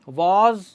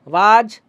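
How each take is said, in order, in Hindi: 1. इस शब्द को गोल, अंग्रेज़ी जैसे स्वर में बोला गया है। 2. इस शब्द को सपाट भारतीय ढंग के स्वर में बोला गया है। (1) "वॉज बोलिए" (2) "वाज मत बोलिए"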